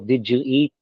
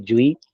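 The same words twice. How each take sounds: First: Each word is said separately and fully. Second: The words are run together into one sound.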